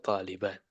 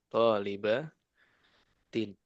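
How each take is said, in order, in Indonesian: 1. Akhiran dihilangkan setelah -at. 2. Akhiran -in dilafalkan. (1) "kalau di keseharian kan harokat terakhir nggak dibaca" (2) "ini tentu kalau mau dibaca lengkap"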